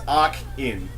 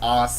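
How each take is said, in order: First: The first syllable ends with a K sound. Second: The first syllable ends with an S sound. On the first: The speaker calls it right. "it's supposed to stand for arcade input. So it's arc in" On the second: The speaker calls it wrong. "we're all pronouncing it wrong"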